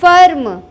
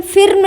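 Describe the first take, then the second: First: फर्म with an open "uh" vowel, "farm"-like; correct "a" vowel. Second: फिर्म with an "ih" vowel, "firm" as spelt; wrong short-i vowel. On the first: Teacher giving the correct word, फर्म with an "a" sound. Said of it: "इसमें आ उच्चारण आएगा". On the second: Teacher showing what not to say, फिर्म with an "ih" sound. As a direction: say फिर्म with the i of "ill". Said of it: "फिर्म नहीं बोलेंगे". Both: Shown as a demonstration.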